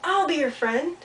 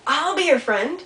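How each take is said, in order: First: Echo. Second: High, loud offer called across water; calling out. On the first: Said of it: "and then he heard". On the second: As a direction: call it out to someone across the pond. Beaver calls offer across pond. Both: Acted.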